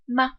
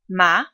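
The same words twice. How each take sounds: First: The pitch is short, light and unstressed. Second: The pitch rises from middle to high. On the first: "the fifth tone is unstressed and neutral" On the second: "The second tone rises in pitch"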